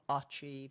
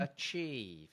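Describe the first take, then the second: First: The first vowel is a full vowel. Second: The first vowel is a weak schwa. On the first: The speaker calls it wrong. "It's not achieve" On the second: The speaker calls it right. "It's a schwa"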